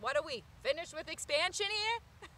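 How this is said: It is said in a New York accent.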